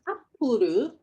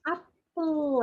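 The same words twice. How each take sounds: First: It is said with Japanese katakana-style pronunciation. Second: It is said with English pronunciation. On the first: The speaker calls it wrong. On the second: The speaker calls it right.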